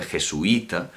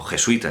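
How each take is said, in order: First: "jesuita" as je-su-Í-ta, i stressed on its own; "jesuita" in four syllables; hiatus pronunciation. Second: "jesuita" as je-SUI-ta, ui in one syllable; "jesuita" in three syllables; diphthong pronunciation. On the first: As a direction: break "jesuita" between u and a long í. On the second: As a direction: run the u and i of "jesuita" together. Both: Shown as a demonstration. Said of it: "jesuita en lugar de jesuita".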